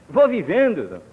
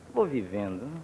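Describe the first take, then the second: First: It is said in a cheerful, contented tone. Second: It is said in a dejected, disconsolate tone. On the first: Life is going very well. "dirá já com a inflexão de quem vai mesmo muito bem" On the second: Life is going badly, but one carries on. "dirá em tom de voz desconsolado"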